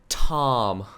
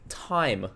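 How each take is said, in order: First: The vowel is a pure open 'ah' sound. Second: The vowel glides fully into an 'ee' sound. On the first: The speaker calls it right. "So you have to say Tom" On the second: The speaker calls it wrong. "we enunciate the I. We say time"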